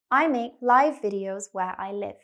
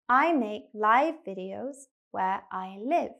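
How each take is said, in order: First: The sentence is spoken quickly. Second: The sentence is spoken slowly. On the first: "I will say the sentence quickly" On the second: "Second time, slower"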